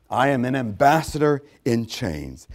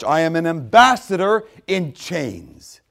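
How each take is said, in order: First: Said in the usual way. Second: Slow emphasis. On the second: Shown as a demonstration.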